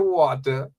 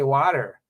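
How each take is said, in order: First: It is said without an American accent. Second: It is said with an American accent.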